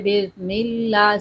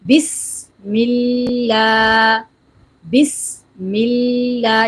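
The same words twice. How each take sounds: First: "بسم اللہ" with the s dropped; swallowed Seen. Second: Very slow "بسم اللہ", long hissed s and stretched vowel; whistling Seen. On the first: Teacher mimics careless readers, s missing from "بسم اللہ". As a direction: slur past the s of "بسم اللہ". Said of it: "سین کی آواز نہیں آتی". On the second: Teacher models correct tasmiyah, long whistling s in "بسم اللہ". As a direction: recite "بسم اللہ" drawn out with a sharp s. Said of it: "سین میں سیٹی کی آواز نکالتے ہوئے". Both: Shown as a demonstration.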